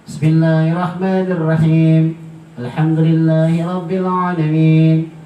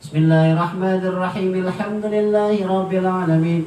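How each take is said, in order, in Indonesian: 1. Ada jeda yang memisahkan kedua frasa. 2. Kedua frasa itu menyambung tanpa jeda. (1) "kita ambil yang biasa dipakai dari Asim Al-Kufi" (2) "penyampaian bismillah dengan alhamdulillah yang disambung"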